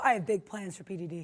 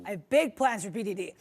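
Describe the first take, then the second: First: Lightly voiced supervillain; a hint of a scheming villain. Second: Lightly voiced scheming villain; supervillain voice. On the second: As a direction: say it like a plotting villain. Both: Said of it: "why do you sound like a supervillain".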